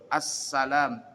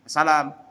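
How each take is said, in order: First: The s sound is held long, doubled. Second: The s sound is short, not doubled. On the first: The speaker calls it right. "As S-nya dua" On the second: The speaker calls it wrong. "sinnya enggak double, enggak tasydid dibacanya"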